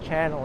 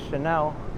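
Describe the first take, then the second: First: It sounds like the English word channel. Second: It does not sound like English channel. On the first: The speaker calls it wrong. "It's not Channel" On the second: The speaker calls it right. "it's Chanel"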